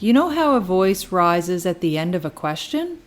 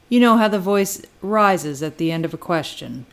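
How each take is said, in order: First: The pitch rises at the end. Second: The pitch falls at the end. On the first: It asks the listener to confirm. "the saying one is actually asking for somebody to confirm" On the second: It makes a confident statement. "making more of a statement, and it's said with more confidence"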